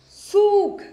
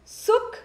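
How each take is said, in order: First: सूख with a long oo; सूख, vowel drawn out loud. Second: सुख with a short u; quick u in सुख. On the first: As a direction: stretch the oo in सूख firmly. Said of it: "स्वर थोड़ा सा खींचना है". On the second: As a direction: say सुख with a brief, high vowel. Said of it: "छोटी ऊ की मात्रा". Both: Shown as a demonstration.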